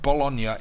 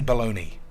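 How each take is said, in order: First: The word has an Italian pronunciation. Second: The word has an American pronunciation. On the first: This is how it is said in Italy. "is said Bologna in Italy" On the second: This is how Americans say it. "Americans say Bologna"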